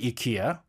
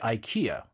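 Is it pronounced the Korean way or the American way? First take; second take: Korean; American. First: It is pronounced the Korean way. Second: It is pronounced the American way.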